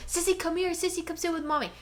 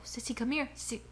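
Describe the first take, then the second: First: Lightly voiced high dog-calling; higher pet-talk, calling Sissy; coaxing the dog. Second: Whispered call to the pet; hushed voiceless dog-calling; whispering to the dog. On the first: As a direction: call the dog over sweetly. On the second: Retold or imitated. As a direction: whisper Sissy to come close.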